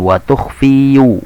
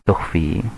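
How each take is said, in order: First: The word ends with an added yu sound. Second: The word ends on a plain long i.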